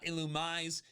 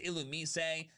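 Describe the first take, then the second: First: The final E is silent. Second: The final E is pronounced as a vowel. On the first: "and not Illumise" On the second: "the official pronunciation is Illumise"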